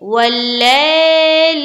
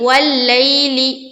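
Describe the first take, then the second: First: The 'lay' sound is drawn out long. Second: The 'lay' sound is said quickly and softly. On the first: The speaker calls it wrong. "खींच दिया तो गलत हो गया" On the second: The speaker calls it right. "बिल्कुल जल्द अदा करेंगे नरमी के साथ"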